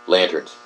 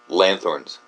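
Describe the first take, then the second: First: The middle consonant is a plain t sound. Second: The middle consonant is a th sound. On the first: This is how the word is said today. The speaker calls it right. "we say lanterns. Just like that" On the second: This is an old way of saying the word. The speaker calls it wrong. "L A N T H O R N S. Lanthorns. Maybe that was how originally uh, it was uh, spoken"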